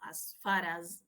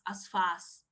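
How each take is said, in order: First: An R sound links far to the following word. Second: The words join with no R sound between them. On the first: The speaker calls it right. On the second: The speaker calls it wrong. "you're not going to say"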